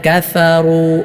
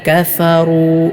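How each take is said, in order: The two takes are said the same way.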